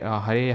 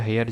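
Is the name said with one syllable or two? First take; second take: two; one. First: The name is said in two syllables, ha-re. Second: The name is said in one syllable, like hair. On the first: "हरे हेयर जो भी इसको pronounce करते हो" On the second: "I think हेयर pronounce करते होंगे"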